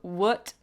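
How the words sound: It is said with an American uh vowel. "some Americans ... says what, what, what, with more like an uh sound"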